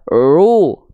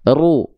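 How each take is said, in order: First: The r has no trill at all. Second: The r has a short, firm trill. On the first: The speaker calls it wrong. "Justru hilang getarannya, jadi jadi kayak orang bule" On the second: The speaker calls it right. "Ru getarannya tetap ada"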